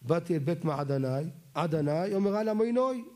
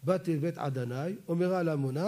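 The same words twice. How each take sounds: First: "מעדני" ends in ai, "למוינוי" in oy. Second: "עדני" and "למוני" both end in ai. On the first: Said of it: "לפי אשכנזים זה לא חרוזים". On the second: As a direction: rhyme "למוני" with "עדני" on a clear ai. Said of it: "ספרדים זה מצוין". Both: Shown as a demonstration.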